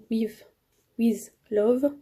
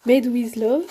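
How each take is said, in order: First: Stumbling, French-accented "with, with Love"; French-accented English. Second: "Made with Love" louder, in a put-on English accent; mock English accent. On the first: Vlogger fumbling the challenge's English name, French accent. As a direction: trip over "with" in a French accent. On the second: Vlogger mock-proudly saying the English name, louder English accent. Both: Shown as a demonstration. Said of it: "Il est là l'accent anglais".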